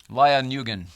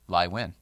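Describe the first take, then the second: First: The surname begins with an N sound. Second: The surname begins with a W sound. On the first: The speaker calls it wrong. "I always get that one wrong" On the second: The speaker calls it right. "So you don't do the N at all"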